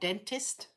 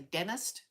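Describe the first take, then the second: First: The middle T sound is clearly pronounced. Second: The middle T sound is dropped. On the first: "not dentist" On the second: "They miss the T. They don't specifically say the T"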